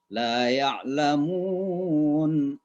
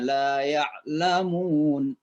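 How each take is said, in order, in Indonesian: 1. Vokal panjang terakhir ditahan empat harakat. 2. Vokal panjang terakhir ditahan dua harakat. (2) "Dua harakat"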